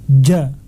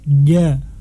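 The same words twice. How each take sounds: First: The consonant is strong, with the voice briefly held. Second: The consonant is weak, with voice still flowing. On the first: The speaker calls it right. "Harus dibaca dengan jelas" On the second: The speaker calls it wrong. "Sebagian membaca huruf jim dengan ja, ... Ini bukan bacaan yang benar"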